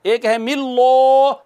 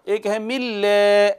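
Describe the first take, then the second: First: मिल्लो said with a thick lam, rounded o ending; heavy lam, wrong. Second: मिल्ले said with a thin lam, e ending; light lam, right. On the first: Teacher contrasting the wrong heavy version for students. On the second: Teacher contrasting the correct light version for students. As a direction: say मिल्ले lightly with lips pulled back, slow. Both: Shown as a demonstration. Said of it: "कैसे बारीक करेंगे?".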